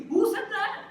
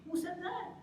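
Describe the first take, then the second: First: Very high, loud incredulous cry; outraged challenge. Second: High, incredulous question; incredulous challenge. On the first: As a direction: shout the challenge in disbelief. Challenges the rule, louder this time. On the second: Challenges the friends' made-up rule. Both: Real, not acted.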